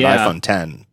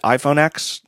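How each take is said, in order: First: The X is said as the number "ten". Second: The X is said as the letter "ex". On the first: "If they're expecting people to pronounce it iPhone 10" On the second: "they should actually pronounce it iPhone X"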